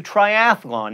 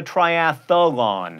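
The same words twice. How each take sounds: First: "triathlon" in three syllables, try-ATH-lon; correct triathlon. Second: "triathlon" as try-ATH-a-lon, slow; wrong triathlon. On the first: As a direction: say "triathlon" with no extra vowel. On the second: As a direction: slip an extra syllable into "triathlon". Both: Shown as a demonstration. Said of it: "not a triathlon".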